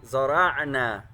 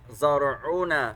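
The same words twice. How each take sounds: First: The ain does not carry an 'u' vowel. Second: The ain carries an 'u' vowel. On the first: The word is a verb. The speaker calls it right. "It's supposed to be زرعنا. That's a fi'l" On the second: The word is a noun. The speaker calls it wrong. "I recited it زرعنا with the dhamma on the ain, making it a noun"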